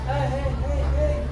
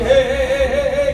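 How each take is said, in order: First: The voice is softer and more gentle. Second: The voice is harsher and less gentle. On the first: This is how she sounds after puberty. "agak lebih lembut" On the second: This is how a girl sounds now. "kalau sekarang dia"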